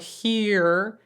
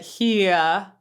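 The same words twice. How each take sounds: First: The vowel ends in a strong R color. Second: The vowel glides into a neutral schwa. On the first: "he doesn't say here and go really R colored with it" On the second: "goes to an A, which is a schwa, a neutral vowel"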